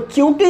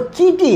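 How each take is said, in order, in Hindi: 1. पहले व्यंजन के बाद एक w-जैसी ध्वनि आती है। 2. पहले व्यंजन के बाद कोई ध्वनि नहीं आती। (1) "वो च्यूटी नहीं है" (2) "वो चीटी है"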